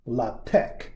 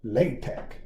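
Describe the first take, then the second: First: "LaTeX" said lah-TEK; first pronunciation. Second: "LaTeX" said LAY-tek; second pronunciation. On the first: Teacher shows students one way to say the name, "LaTeX" as lah-TEK. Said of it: "some people pronounce". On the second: Teacher shows students the other way to say the name, "LaTeX" as LAY-tek. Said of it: "some other people like to pronounce". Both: Shown as a demonstration.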